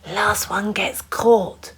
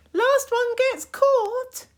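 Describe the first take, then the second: First: Slow whispered warning. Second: Very high slow call; a daring game call. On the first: A narrator's reading. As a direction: whisper the dare. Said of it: "whispered Hector". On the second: Acted. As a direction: sing it out like a dare. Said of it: "game call, retaken".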